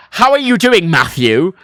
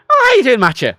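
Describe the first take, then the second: First: Put-on loud English accent, every word separate, full "Matthew"; telling-off English. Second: High, loud Irish greeting, "Matthew" as "Matcha"; casual Irish. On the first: English greeting that sounds like telling him off, stern English. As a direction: imitate a scolding English greeting. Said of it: "sounds like I'm being told off". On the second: Retold or imitated. Contrasting the Irish greeting with English, casual Irish. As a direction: toss out an easy Irish hello. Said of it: "It's casual".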